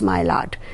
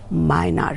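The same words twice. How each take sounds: First: It follows the spelling, with a clear L sound. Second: It departs from the spelling, without an L sound. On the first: The speaker calls it wrong. "Maillard is not pronounced as Maillard" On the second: The speaker calls it right. "it is pronounced as Maillard reaction"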